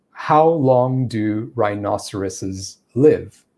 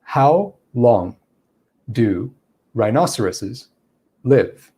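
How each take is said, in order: First: Slow, measured question with gaps between words; very slow cadence. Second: Long pauses between words, "rhinoceroses" itself said quickly; extremely slow cadence. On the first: Teacher illustrating cadence in a sentence, slow. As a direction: space out each word deliberately. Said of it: "I'm using a very slow cadence there". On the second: Teacher illustrating cadence versus speed, long pauses between words. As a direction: stop after each word, keep "rhinoceroses" brisk. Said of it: "slow down my cadence even more". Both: Shown as a demonstration.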